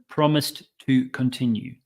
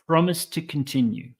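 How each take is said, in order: First: Two separate t sounds come between the words. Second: A single t sound links the first two words. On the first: The speaker calls it wrong. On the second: The speaker calls it right.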